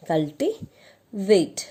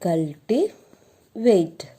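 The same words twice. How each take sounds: First: Said in the usual way. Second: Cultivate said very slowly, syllable by syllable; slow drawn-out answer. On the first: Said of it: "okay". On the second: Shown as a demonstration. Teacher drawing out the answer for students, slowly. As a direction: stretch cultivate out slowly for the class. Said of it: "So the root word is".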